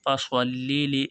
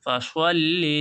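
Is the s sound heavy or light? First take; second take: heavy; heavy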